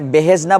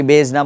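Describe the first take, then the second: First: বেহেজনা in three syllables, be-hej-na; he pronounced separately. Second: বেজনা in two syllables, bej-na; বেজনা run together as bej-na; he not separated. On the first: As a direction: give the he its own syllable in বেহেজনা. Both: Shown as a demonstration. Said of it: "হেটাকে কি আমি একে একে উচ্চারণ করবো".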